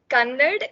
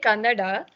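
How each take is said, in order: First: The word ends without a final vowel. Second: The word ends with a final vowel. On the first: The speaker calls it wrong. "Kannad itself is wrong" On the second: The speaker calls it right. "You're supposed to say Kannada"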